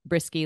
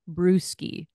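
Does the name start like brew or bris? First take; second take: bris; brew. First: The first syllable sounds like bris. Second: The first syllable sounds like brew. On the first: This is how the family actually says it. The speaker calls it right. "we pronounce it Brisky, like a brisk day" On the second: This is how the spelling suggests it is said. The speaker calls it wrong. "It looks like Brewski"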